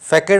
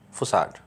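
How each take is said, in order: First: The middle consonant is a hard K sound. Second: The middle consonant is a soft S sound. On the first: The speaker calls it wrong. "फैकेड आप Hindi medium वाले बच्चे बोल देंगे इसको" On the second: The speaker calls it right. "सही pronunciation क्या है? फुसाड"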